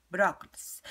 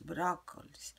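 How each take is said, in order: First: Brócolis said out loud and clear; brócolis, finally clear and louder; louder final try. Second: Said in the usual way. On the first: Real, not acted. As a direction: land brócolis firmly. Repeating the word, getting louder.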